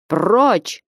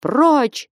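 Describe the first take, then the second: First: A mild, barely raised «Прочь»; loud shout. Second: Stern shout. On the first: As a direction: push her off with a short «Прочь». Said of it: "громко закричал Потап Максимыч". (короткое «Прочь» без крика) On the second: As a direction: drive them off with a big «Прочь». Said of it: "Грозны и громки были крики его". (грозный выкрик «Прочь») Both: A narrator's reading.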